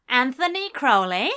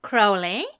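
First: Loud call leaning on Anthony, rising at the end; hailing him down the sidewalk; louder calling out. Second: Loud call across the street with a rising question; called out, a bit unsure; calling out a name. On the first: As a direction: shout the full name, eager. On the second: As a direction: shout his name to catch him. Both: A narrator's reading. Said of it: "shouted his name".

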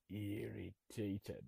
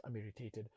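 First: IRRITATED drawn out very slowly, low and soft; mock-grave, syllable-by-syllable "irritated"; gravely irritated. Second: IRRITATED said low and soft, tossed off; "irritated" in a quick, low, quiet fall; mildly irritated. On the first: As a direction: stretch each syllable of "irritated" in a hushed, low voice. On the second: Retold or imitated. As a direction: play down "irritated" as a small annoyance. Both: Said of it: "the intensity of what you're saying".

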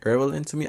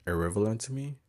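First: High, giggling question; laughing at own pronunciation. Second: Said in the usual way. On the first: Real, not acted. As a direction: laugh through the word irrelevant. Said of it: "I don't know how to fucking say that word". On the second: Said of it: "Is that, is there a word?".

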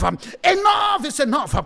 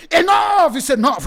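First: Slow, heavy, emphatic repeat; slow, drawn-out declaration. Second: High, loud preacher's shout; shouted declaration. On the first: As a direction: drag each word out firmly. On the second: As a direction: shout it out at the enemy. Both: Acted. Warfare prayer, repeated declaration.

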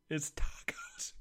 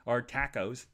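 First: "tacos" whispered high and slow. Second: "tacos" said TACK-ohs; "tacos" with flat a. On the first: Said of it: "enunciate, Rambo". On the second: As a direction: say "tacos" with the a of cat. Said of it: "if you wanna be". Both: Shown as a demonstration.

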